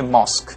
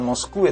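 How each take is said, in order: First: The word ends with a plain 'k' sound. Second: The word ends with an extra 'kweh' syllable. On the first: The speaker calls it right. "tapi dibaca mosque" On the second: The speaker calls it wrong. "bukan Moskwe"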